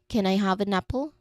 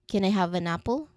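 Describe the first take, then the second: No difference in how they are said.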